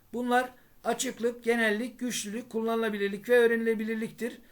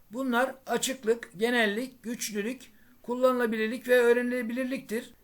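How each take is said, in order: No difference in how they are said.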